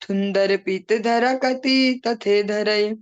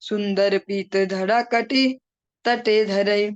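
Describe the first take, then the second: First: The words are said with a childlike lisp. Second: The words are said clearly, without a lisp. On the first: The playful childhood of a god is being acted out. "तोतली भाषा में इसको बोला" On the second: These are the original words of the song. "जो उसके actual word है"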